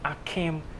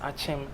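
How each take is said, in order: First: The name is said in an anglicized form. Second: The name is said in its local form. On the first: This form comes from Western influence. The speaker calls it wrong. "Due to infiltration of Western culture, we do describe it as Akim. That's one bad thing" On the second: This is the original local name. The speaker calls it right. "known as Achem"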